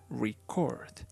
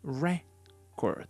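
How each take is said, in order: First: The stress is on the second syllable. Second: The stress is on the first syllable. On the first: It names an action. "if we talk about the action, the intonation goes on the second syllable" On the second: It names a thing. "If we are talking about a thing, the intonation goes on the first syllable"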